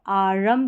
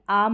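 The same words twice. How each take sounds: First: आरम with a full र and an extra vowel; wrong full r. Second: आम with the र almost gone; silent r. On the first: Teacher showing the wrong आरम with a full र. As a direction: say आरम with the र fully sounded. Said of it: "इसको आरम करके नहीं पढ़ सकते". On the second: Teacher modelling the right आम with the र almost silent. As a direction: say आम, dropping the र to a faint trace. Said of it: "र का बिल्कुल हल्का सा साउंड आएगा". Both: Shown as a demonstration.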